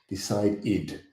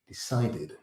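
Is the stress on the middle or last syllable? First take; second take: last; middle. First: The stress is on the last syllable. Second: The stress is on the middle syllable.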